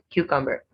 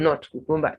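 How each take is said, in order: First: The stress is on the first syllable. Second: The stress is not on the first syllable. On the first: The speaker calls it right. "first syllable stressed in both" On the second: The speaker calls it wrong.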